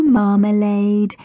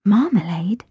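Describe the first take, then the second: First: Slow, drawn-out cooing name; "Marmalade" drawn slowly, sweetly. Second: "Marmalade?" with a questioning rise, a bit put out; "Marmalade?" lifted as a wary question; doubtful question. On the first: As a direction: stretch "Marmalade" out fondly to the kitten. Mia cooing to a kitten. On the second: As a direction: echo "Marmalade?" with unsure disapproval. Amy stiffened. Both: A narrator's reading.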